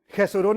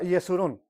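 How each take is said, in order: First: It begins with a throaty H-like sound. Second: It begins with a Y sound. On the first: "Jesurún es Israel" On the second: "más que nada se pronuncia Yesurún"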